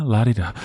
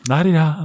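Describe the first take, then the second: First: Said in the usual way. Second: High, prissy mock upper-class trill; lightly lampoon a snooty Mid-Atlantic swell; mock posh la-di-da. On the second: Host mocking the old posh movie accent, high mock-posh trill. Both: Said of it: "that kind of la-di-da sensibility".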